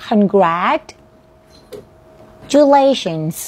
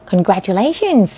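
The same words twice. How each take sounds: First: "congratulations" stretched slowly, broken before "-lations"; drawn-out teaching demo of "congratulations"; pronunciation model. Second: Said in the usual way. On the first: Shown as a demonstration. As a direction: say "congratulations" in slow parts with a long pause midway. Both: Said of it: "ลองเสียงคำนี้ค่ะ".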